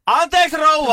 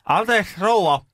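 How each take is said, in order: First: Very high, loud call to the hard of hearing; imitated shout. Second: Put-on high-pitched, careful address to an old patient; polite raised-voice inquiry. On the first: Carer leaning closer to a deaf old lady, shouting. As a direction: shout it high and drawn out, as re-enactment. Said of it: "meni vähän lähemmäs ja huusi". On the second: Carer asking a staring old patient, polite and high. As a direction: get her attention courteously, pitched up. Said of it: "Sit mä kysyin".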